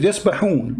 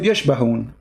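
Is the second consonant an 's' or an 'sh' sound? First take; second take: s; sh. First: The second consonant is a plain 's' sound. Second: The second consonant is an 'sh' sound. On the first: The speaker calls it right. "يسبحون in front of me" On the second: The speaker calls it wrong. "You said يشبهون. ... there's no letter ish there"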